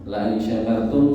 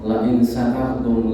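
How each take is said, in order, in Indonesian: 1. Kata kerjanya diawali dengan bunyi 'sh'. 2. Kata kerjanya diawali dengan bunyi 's' biasa. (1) "Syakaro bersyukur" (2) "la in sakartum itu sisi makna udah salah"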